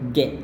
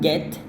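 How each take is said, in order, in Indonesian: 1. Bunyi T di akhir kata tidak diucapkan. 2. Bunyi T di akhir kata jelas diucapkan. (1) "Jadi T-nya mati" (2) "ketimbang get"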